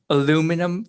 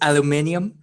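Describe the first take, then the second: First: The word is said with four syllables. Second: The word is said with five syllables. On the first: This is the everyday word used when asking for foil. "I'm going to pronounce it in the way that all of you hate" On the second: This is the word used when talking actual science. "when I'm talking actual science, I call it aluminium"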